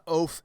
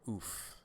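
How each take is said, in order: First: The vowel is a long 'oh' sound. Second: The vowel is a long 'oo' sound. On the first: The speaker calls it wrong. "Not oaf as in like like O A F, like like a big dumb oaf" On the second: The speaker calls it right. "It's it's oof, right?"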